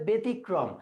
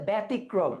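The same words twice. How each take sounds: First: ব্যতিক্রম as "be-tikrom"; closed pronunciation. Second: ব্যতিক্রম as "bæ-tikrom"; open pronunciation. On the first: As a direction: demonstrate ব্যতিক্রম with a narrow e. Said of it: "যদি সংবৃত হয় তাহলে হবে". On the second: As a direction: demonstrate ব্যতিক্রম with a wide æ. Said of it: "বিবৃত উচ্চারণ হইলে হবে". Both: Shown as a demonstration.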